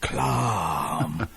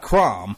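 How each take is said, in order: First: The word is said with an L sound. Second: The word is said with an R sound. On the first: "anything he said with an R actually had an L sound" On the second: "not crom"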